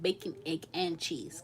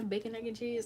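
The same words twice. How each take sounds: First: Each item is separated by a clear pause. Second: The items run together without any pauses. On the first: The speaker calls it wrong. "We don't even say it" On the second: The speaker calls it right. "it's just a one sentence"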